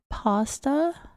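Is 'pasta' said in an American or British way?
American. The word is said with an American vowel. This is how Americans say it. "So in American English, we would say pasta"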